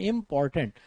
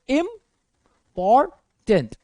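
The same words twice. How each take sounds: First: Said in the usual way. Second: important in three slow, separate chunks; pauses between syllables. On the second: Shown as a demonstration. Teacher counting syllables for students, important broken by pauses. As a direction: split important with long gaps between syllables. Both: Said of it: "आप दो से ज्यादा बार pause दे रहे हैं".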